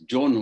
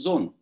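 First: The word begins with a 'j' sound. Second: The word begins with a 'z' sound. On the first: The speaker calls it wrong. "In Tamil, it is written as John" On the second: The speaker calls it right. "But he actually means zone"

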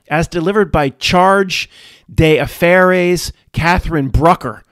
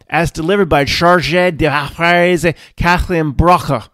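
First: It is read in a broad South Philly American accent. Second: It is read with a French-style pronunciation.

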